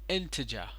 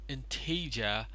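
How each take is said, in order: First: The stress falls on the usual syllable. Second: The stress falls on a misplaced syllable. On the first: The speaker calls it right. "but it is integer" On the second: The speaker calls it wrong. "you put the wrong stress at the wrong syllable. It is not integer"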